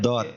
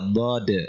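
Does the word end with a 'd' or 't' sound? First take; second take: t; d. First: The word ends with a 't' sound. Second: The word ends with a 'd' sound. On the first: The speaker calls it wrong. "bukan dot" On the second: The speaker calls it right.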